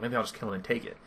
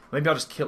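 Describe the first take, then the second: First: Soft, muttered aside; said to himself. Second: Said in the usual way. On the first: Acted. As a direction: drop the volume as if thinking aloud. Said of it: "like, to himself". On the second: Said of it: "he's like".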